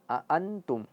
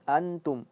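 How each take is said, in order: First: The word starts with two clear glottal catches. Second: The word starts with a single glottal catch. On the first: The speaker calls it right. "jelas dua dua hamzah di sini" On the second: The speaker calls it wrong. "Jangan antum"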